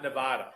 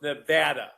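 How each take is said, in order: First: Nevada with a broad AH in the middle; stressed middle of Nevada like "father"; wrong pronunciation. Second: Nevada with a short flat A, as in "cat"; stressed middle of Nevada rhymes with "had"; local pronunciation. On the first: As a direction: say Nevada as nuh-VAH-duh. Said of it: "not Nevada". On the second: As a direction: say Nevada as nuh-VAD-uh. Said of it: "we really like it pronounced Nevada". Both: Shown as a demonstration.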